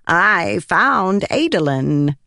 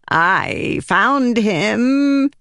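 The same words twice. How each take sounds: First: Slow, drawn-out odd voice; proclaiming spren. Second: High, slow, drawn-out proclamation; proclaiming spren. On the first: Pattern proudly presenting Adolin, slow and odd. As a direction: announce the name like a strange spirit. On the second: Pattern announcing his find, slow and high. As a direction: announce it like an odd spirit. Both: Acted. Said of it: "he proclaimed".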